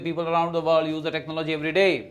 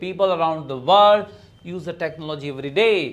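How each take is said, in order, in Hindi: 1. वाक्य बिना रुके सीधा चलता है। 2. वाक्य के बीच में एक छोटा सा विराम है। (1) "आप सीधा नहीं बोल सकते" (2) "माइक्रोपोज लेना है कॉमा पे"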